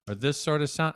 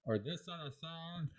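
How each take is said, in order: First: Said in the usual way. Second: Very soft, muffled speech through a plastic cup. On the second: Shown as a demonstration. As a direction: say it with the cup over your mouth, hollow and far off.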